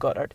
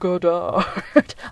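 First: The name is pronounced in a plain way. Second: The name is pronounced in a fancy way. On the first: "I'm just going to call him Goddard" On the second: "being all fancy and being like"

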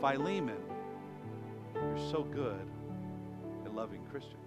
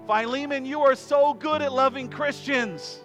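First: The tone is pointed and quietly reproachful. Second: The tone is warm and sincerely praising. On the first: The speaker is hinting at a failing: the listener has forgotten to share his faith. "think of how we could say the same words with a different tone" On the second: The speaker is genuinely complimenting the listener. "I think Paul is like"

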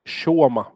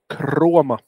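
First: The name has no r after the first consonant. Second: The name has an r after the first consonant. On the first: The speaker calls it right. "tänk krom på engelska utan R" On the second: The speaker calls it wrong. "Eller inte Kroma"

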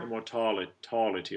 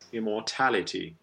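First: The tal vowel shifts away from the bright a. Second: The tal vowel is a bright open a. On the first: The speaker calls it wrong. "Don't shift to immortality" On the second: The speaker calls it right. "Tal stays that ah, the cat vowel"

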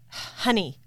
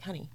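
First: It is said in an annoyed, angry tone. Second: It is said in a warm, affectionate tone.

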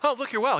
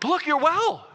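First: It is said flatly, without enthusiasm. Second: It is said with fired-up excitement.

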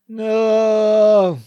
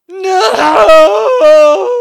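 First: It is said with little feeling. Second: It is said with strong, dramatic feeling.

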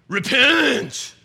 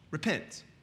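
First: It is said forcefully, like a hellfire sermon. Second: It is said calmly, as an ordinary word.

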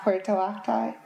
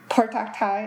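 First: The name is said slowly. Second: The name is said very quickly. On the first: The speaker calls it wrong. "not Puertoctay" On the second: The speaker calls it right. "you have to say Puertoctay as fast as you possibly can"

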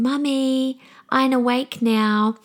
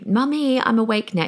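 First: It is said in a cute little child's voice. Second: It is said in her normal adult voice.

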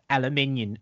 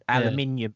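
First: It is pronounced in a British way. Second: It is pronounced in an American way.

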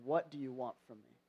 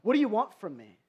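First: It sounds gentle and caring. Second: It sounds frustrated and bothered.

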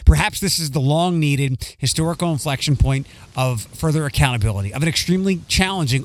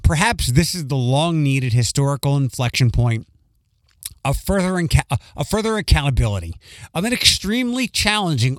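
First: It is read faster and more smoothly. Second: It is read more slowly and less smoothly.

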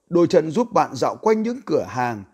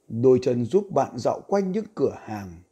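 First: It is read loudly with raised volume. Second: It is read slowly at normal volume.

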